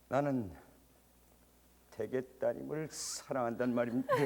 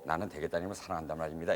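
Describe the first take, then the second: First: The line is spoken with marked, varied expression. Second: The line is spoken evenly with little variation. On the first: This is the actor's own characteristic manner. "이게 아니라" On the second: This is how an ordinary actor would say it. "이 얘기를 할 때도"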